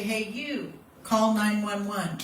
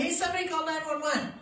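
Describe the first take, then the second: First: Firm, slow, pointed order; single out one person and tell them; direct command. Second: High, unfocused appeal to nobody in particular; vague call to a crowd. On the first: Instructor demos pointing at one bystander, a firm slow command. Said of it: "use your little pointer finger and say". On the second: Instructor demos the wrong way, calling vaguely to a crowd, high and unfocused. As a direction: call out to anyone, hoping someone acts. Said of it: "what happens if you have a crowd". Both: Shown as a demonstration.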